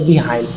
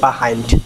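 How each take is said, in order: First: The first syllable has a clear 'ee' vowel. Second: The first syllable has a reduced 'uh' vowel. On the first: The speaker calls it wrong. "অনেকে বলি আমরা বিহাইন্ড" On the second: The speaker calls it right. "এটা সঠিক pronounce হচ্ছে বাহাইন্ড"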